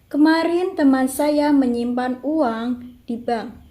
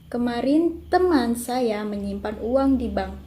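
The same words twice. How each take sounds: First: The stress falls on uang. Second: The stress falls on teman. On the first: "Yang kelima mendapat tekanan pada kata uang" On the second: "kalimat kedua mendapatkan tekanan pada teman"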